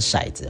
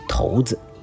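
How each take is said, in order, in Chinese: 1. 它用的是日常、常听到的读法。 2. 它用的是标准的词典读法。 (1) "一般我们念成骰子哈" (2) "要念成骰子啊，正确的读音念成骰子"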